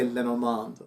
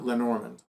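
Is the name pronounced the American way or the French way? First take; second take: French; American. First: The name is said with French-style pronunciation. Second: The name is said with Americanized pronunciation. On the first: "it's natural for me to say Lenormand" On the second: "as opposed to Lenormand"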